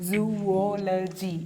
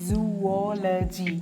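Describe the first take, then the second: Both takes have the same delivery.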